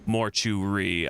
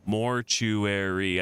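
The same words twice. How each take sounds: First: Mortuary squeezed into three beats; slow mortuary with no "air" syllable. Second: Mortuary in four slow syllables. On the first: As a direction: say mortuary as mor-choo-ree. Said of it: "Mortuary is a three-syllable word". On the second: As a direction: say mortuary as mor-chu-air-ee. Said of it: "it's four for me". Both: Shown as a demonstration.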